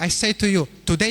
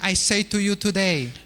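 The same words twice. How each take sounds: First: The pause falls before the word 'today'. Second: The pause falls after the word 'today'. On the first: The thief enters paradise that same day. "The comma comes before the word today" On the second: Today marks when the promise was made. "what if the comma belongs after the word today?"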